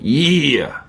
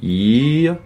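First: The command is said in a sharp, stern tone. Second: The command is said in a soft, gentle tone.

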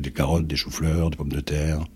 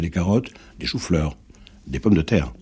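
First: Each item in the list stays on one pitch. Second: Each item in the list changes in pitch. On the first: The speaker calls it right. "ils sont sur la même note" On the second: The speaker calls it wrong. "vous ne dites pas ça"

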